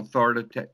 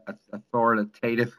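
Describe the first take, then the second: First: "authoritata-" tripped over and cut off mid-word; fumbled word. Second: "authoritative" said out carefully and in full; corrected word. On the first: Client under questioning trips over the word, stumbling. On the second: Client corrects himself for his coach, careful and clear. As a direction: land "authoritative" cleanly on the retry. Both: Real, not acted. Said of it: "I think I said it the right word".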